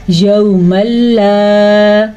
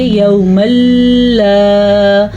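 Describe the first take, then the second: First: یوم لا very slow, joined without a ghunna; یوم لا chanted as one joined run; correct merging. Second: یوم لا with a stop between یوم and لا; یوم لا split apart wrongly; wrong, with a break. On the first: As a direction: blend یوم لا smoothly into one breath. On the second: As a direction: demonstrate the error, pausing after یوم. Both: Shown as a demonstration. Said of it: "اگر ہم یہاں پہ رک گئے تو ہم غلط پڑھیں گے".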